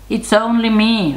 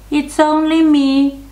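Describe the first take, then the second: First: Fairly high storybook goat; middle-sized voice. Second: Very high, loud little goat squeak; tiny little voice. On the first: Second goat answers the troll, middle-sized high voice. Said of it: "in his middle-sized voice". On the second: Youngest goat answers the troll, tiny high voice. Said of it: "in his tiny little voice". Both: A narrator's reading.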